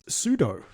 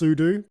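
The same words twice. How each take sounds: First: The second syllable sounds like 'doe'. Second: The second syllable sounds like 'doo'. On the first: "for you, it's sudo. ... Like judo" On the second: "because it's super user do"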